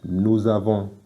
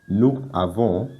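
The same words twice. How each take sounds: First: The final s links to the next vowel. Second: The words are said separately without a linking sound. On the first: The speaker calls it right. "we say" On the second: The speaker calls it wrong. "Instead of saying"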